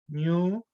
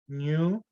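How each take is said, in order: The two takes are said the same way.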